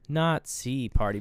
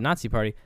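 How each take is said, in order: First: The first word sounds like "not see". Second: The first word sounds like the usual "Nazi". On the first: The speaker calls it right. "they always spell it after the N-O-T-S-E-E Party" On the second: The speaker calls it wrong. "So not the Nazi Party"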